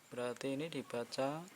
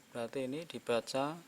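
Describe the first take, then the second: No difference in how they are said.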